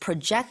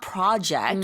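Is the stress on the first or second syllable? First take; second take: second; first. First: The stress is on the second syllable. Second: The stress is on the first syllable. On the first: It is the verb meaning to forecast. The speaker calls it right. "you need to make sure to you're accenting it properly. So it's project" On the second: It is a different word, the noun. The speaker calls it wrong. "not project, which is a completely different word"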